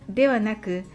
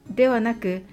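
No difference in how they are said.

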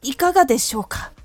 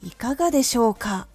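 First: The voice is tense and stiff throughout. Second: The ending grows stronger and stronger.

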